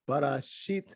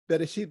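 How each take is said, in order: First: Its vowels are all pronounced as a plain ah. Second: It uses Ashkenazi or Yemenite-style vowels. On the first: "but ours is Barashit, no vowel points"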